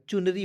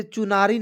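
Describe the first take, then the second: First: चुनरी as CHUN-ree; no long "naa" in चुनरी; correct short middle. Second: चुनारी misread as chu-NAA-ree; stretched middle vowel in चुनारी; wrong long middle. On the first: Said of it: "सही शब्द क्या होता है". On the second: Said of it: "इसे चुनारी नहीं पढ़िएगा". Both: Shown as a demonstration.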